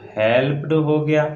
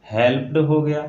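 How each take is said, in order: Both takes have the same delivery.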